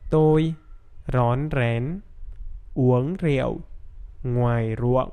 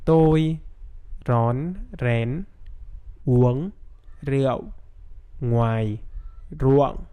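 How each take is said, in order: First: The sentence is spoken somewhat slowly. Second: The sentence is spoken very slowly. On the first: "Now a little bit faster" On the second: "I'm gonna say the sentence very, very slowly"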